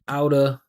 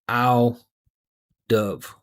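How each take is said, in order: First: The v sound of 'of' is dropped. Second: The v sound of 'of' is kept.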